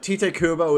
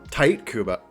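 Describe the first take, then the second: First: The first name does not sound like 'tight'. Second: The first name sounds like the word 'tight'. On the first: The speaker calls it wrong. "I thought it was always Tite" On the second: The speaker calls it right. "His name's actually pronounced Tight Kubo"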